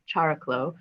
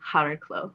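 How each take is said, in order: First: The name has a simplified English pronunciation. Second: The name has the original Greek pronunciation. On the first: "which we call Chariklo" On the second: "that would be Hariklo"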